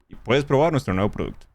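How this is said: It is said in a natural, conversational way.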